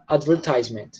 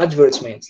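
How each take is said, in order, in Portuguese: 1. Dito com sotaque americano. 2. Dito com sotaque britânico. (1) "Americano fala advertisement" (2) "Britânico fala advertisement"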